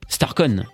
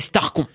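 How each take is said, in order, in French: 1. Le nom est prononcé avec un accent anglais. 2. Le nom est prononcé avec un accent français. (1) "j'ai un accent anglais pitoyable" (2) "si on veut vraiment le dire à la française"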